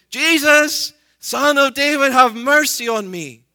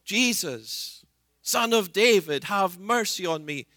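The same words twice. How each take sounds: First: Full-voiced desperate shout, much higher and louder. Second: A calling plea for mercy, not yet full force; crying out. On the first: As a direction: cry out with everything you have. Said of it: "Even louder". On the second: Acted. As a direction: call out to Jesus, begging. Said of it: "so he cries out".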